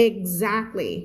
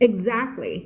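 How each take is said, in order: First: "Exactly" with a voiced gz sound in the middle. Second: "Exactly" with a plain ks sound in the middle. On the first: Teacher showing the advanced take, "Exactly" with gz. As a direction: buzz the z in "Exactly". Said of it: "z-, exactly". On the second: Teacher showing the easier take, "Exactly" with ks. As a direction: say "Exactly" with a simple ks. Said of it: "ไม่พูด exact นะ". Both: Shown as a demonstration.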